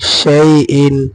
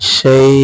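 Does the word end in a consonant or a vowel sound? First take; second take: vowel; consonant. First: The word ends with its full vowel ending. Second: The word ends without its final ending. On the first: The reading continues without stopping here. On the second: The reading stops on this word.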